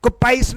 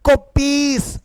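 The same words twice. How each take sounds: First: "कोपाइस" ending in pice; wrong pronunciation. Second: "कोपीस" with a long ee, higher pitched; correct pronunciation. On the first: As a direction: misread it as "कोपाइस", eye vowel. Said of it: "कोपाइस नहीं बेटा". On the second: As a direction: stretch "कोपीस" as ko-pees. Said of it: "कोपाइस नहीं". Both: Shown as a demonstration.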